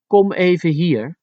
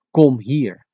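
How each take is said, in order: First: Put-on high, lightened beckoning to a child; lighter request. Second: Mildly commanding, short order; harsh command. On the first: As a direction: call the child over without harshness. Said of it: "it makes it lighter". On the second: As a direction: order the child over. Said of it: "the harsh commanding method of saying". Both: Shown as a demonstration.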